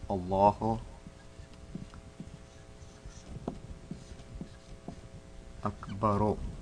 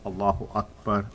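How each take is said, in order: First: The last word ends with a short u vowel. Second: The last word ends on a bare r sound. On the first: "That's the word" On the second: "you will drop the dhamma and you will say Allahu Akbar with the jazm at the end"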